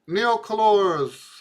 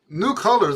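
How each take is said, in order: First: The name is pronounced with Spanish-style vowels. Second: The name is pronounced with English-style vowels. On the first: The speaker calls it wrong. "I keep wanting to spell, spell it. I mean, pronounce it Spanish" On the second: The speaker calls it right. "new colors is really what that is"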